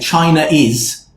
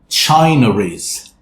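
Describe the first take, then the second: First: The two words are said without a linking r. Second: The two words are linked with an r sound. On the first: The speaker calls it wrong. "we don't want to say China is" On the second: The speaker calls it right. "So it becomes China is... So a rah sound"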